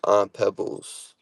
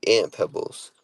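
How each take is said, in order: First: "Aunt" with a broad AH; own pronunciation. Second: "Aunt" said like ant before Pebbles; short A of cat in "Aunt"; viewer's family pronunciation. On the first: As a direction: say "Aunt" as ahnt before Pebbles. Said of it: "like aunt". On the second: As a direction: say "Aunt" like the insect. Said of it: "So they say Aunt Pebbles". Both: Shown as a demonstration.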